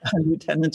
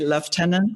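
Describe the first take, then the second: First: The word is said with an American pronunciation. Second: The word is said with a British pronunciation. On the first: "in American" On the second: "in British words"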